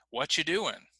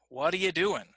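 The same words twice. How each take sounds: First: "What you doing?" with "are" dropped entirely, casual and clipped; reduced what are you. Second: Said in the usual way. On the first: Shown as a demonstration. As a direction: squeeze "What you" together, skip the "are".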